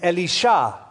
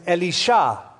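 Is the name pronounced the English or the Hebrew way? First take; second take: Hebrew; Hebrew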